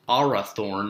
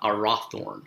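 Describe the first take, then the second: First: ARathorn, stressed on the opening "AR"; stress on first syllable. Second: Arathorn said wrongly as a-RATH-orn; stress on second syllable. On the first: Teacher showing correct Arathorn, first syllable stressed. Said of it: "emphasis still falls on the first syllable". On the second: Teacher showing the wrong Arathorn, middle syllable stressed. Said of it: "not Arathorn". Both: Shown as a demonstration.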